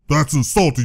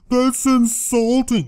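First: It is said in a forceful, confrontational tone. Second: It is said in a meek, mild tone.

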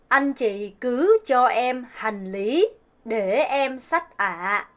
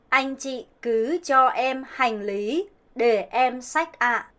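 First: It is said with a Southern Vietnamese accent. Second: It is said with a Northern Vietnamese accent.

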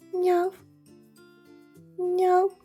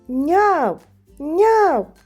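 First: The meowing is said quietly and softly. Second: The meowing is said loudly and strongly. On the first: The call is too faint to be heard. "Спочатку покличемо тихенько" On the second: The call is heard from far away. "Тож покличемо їх голосно"

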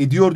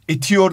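First: The middle consonant is a voiced d. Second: The middle consonant is a voiceless t. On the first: The speaker calls it right. "ediyor diyoruz" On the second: The speaker calls it wrong. "etiyor değil"

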